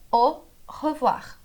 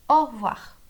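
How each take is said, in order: First: "au revoir" split after "au", full "re"; two separate words. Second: "au revoir" squeezed into two syllables, "orvoir"; words run together. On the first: Teacher showing au revoir is two words, said separately. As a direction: say "au", pause, then a complete "revoir". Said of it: "São duas palavras". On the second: Teacher showing au revoir as spoken, words run together. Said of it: "ficam bem juntas". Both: Shown as a demonstration.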